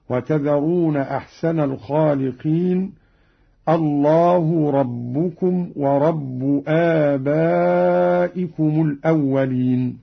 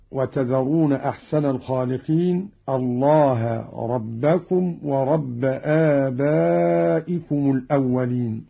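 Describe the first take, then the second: First: الله ربكم ورب read with final u: اللهُ ربُّكم وربُّ; nominative endings. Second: Said in the usual way. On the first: Shown as a demonstration. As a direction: recite the three words ending in u. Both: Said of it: "قرأ قالون برفع لفظ الجلالة".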